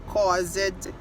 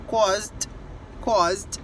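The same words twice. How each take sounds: First: CAUSED in two syllables, "caw-zed"; wrong pronunciation. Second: CAUSED as one syllable, "cawzd"; correct pronunciation. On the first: Teacher showing what not to say, caused mispronounced as caw-zed. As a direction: say "caused" with an extra -ed vowel, lower. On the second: Teacher modeling for learners, caused correctly in one syllable. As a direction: end "caused" straight on zd, no vowel. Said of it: "not ca-, caused". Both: Shown as a demonstration.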